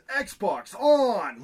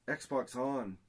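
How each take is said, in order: First: It is said with lively enthusiasm. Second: It is said plainly, without enthusiasm. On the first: "Like it needs that like enthusiasm" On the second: "if I just say"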